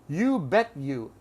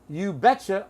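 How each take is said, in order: First: 'Bet you' is said as two full words. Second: 'Bet you' is reduced to 'betcha'. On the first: It means nothing to a listener. The speaker calls it wrong. "The non-reduced form means nothing" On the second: It means absolutely. The speaker calls it right. "You must use this reduction"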